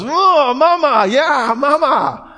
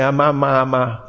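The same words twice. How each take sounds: First: Very high, hammed-up squeal of joy; delighted mama. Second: Lightly voiced baby babble; a hint of a baby trying out syllables; babbling baby. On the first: Mother hears her baby's first word, mock delighted squeal. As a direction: squeal like a thrilled new mother, words drawn out. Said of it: "the mama goes". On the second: Preacher imitating a baby's first words, light babbling. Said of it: "When the little baby starts to say".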